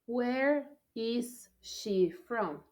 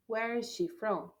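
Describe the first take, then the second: First: Where is she from said slowly, each word spaced; slow model. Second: Said in the usual way. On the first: Shown as a demonstration. Teacher reading the drill to the class, very slow. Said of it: "teacher models slowly". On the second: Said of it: "normal repeat".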